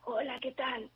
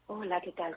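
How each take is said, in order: First: The voice is rough and scratchy, like sandpaper. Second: The voice is breathy, with air escaping. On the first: "Una voz áspera es una voz que aparece, que hasta en la bibliografía aparece como voz de lija" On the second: "Yo estoy hablando así"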